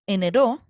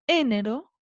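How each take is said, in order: First: The stress is on the last syllable. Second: The stress is on the first syllable. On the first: "¿Se acentúa en la última?" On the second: "Se acentúa en la antepenúltima"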